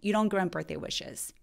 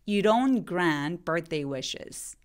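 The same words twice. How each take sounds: First: The sentence is spoken quickly. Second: The sentence is spoken slowly. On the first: "빨리 발음하면" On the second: "천천히 해볼게요"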